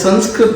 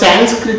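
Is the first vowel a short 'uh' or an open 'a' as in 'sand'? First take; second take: short uh; open a. First: The word is said with native Sanskrit sounds. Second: The word is said with anglicized sounds. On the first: The speaker calls it right. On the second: The speaker calls it wrong.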